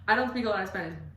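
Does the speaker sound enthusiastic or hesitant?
enthusiastic. It is said with lively enthusiasm. The speaker calls it right. "you should say that with enthusiasm"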